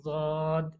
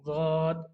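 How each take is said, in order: First: The name begins with a z sound. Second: The same.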